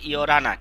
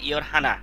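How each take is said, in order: First: The h drops and r links to the vowel. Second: The h sound in the middle is pronounced. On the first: The speaker calls it right. "এই রিউলটা হিয়তের এখানে এসে র উচ্চারণ হবে।" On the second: The speaker calls it wrong. "ইয়রহানা কেন হবে?"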